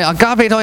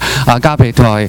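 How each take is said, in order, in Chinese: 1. 它是以略高的音调说的。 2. 它是以最低音调说的。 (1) "越讲声调越高" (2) "越讲声调越高"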